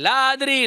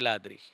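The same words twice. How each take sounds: First: The word is said loudly. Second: The word is said softly.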